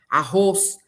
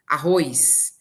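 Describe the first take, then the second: First: "Arroz" com ô puro antes do s; sem i inserido. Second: "arroz" dito arrois; i inserido. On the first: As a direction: diga "Arroz" sem ditongo: a-rrôs. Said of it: "é colocar um I". ("Arroz" terminando em ôs, sem i) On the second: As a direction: acrescente um i em "arroz": a-rrôis. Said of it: "Ou aumenta um som". ("arroz" com ditongo ói fechado, ôis) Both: Shown as a demonstration.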